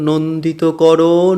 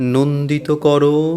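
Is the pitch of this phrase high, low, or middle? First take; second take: middle; low. First: The phrase is said at a middle pitch. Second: The phrase is said at a low pitch.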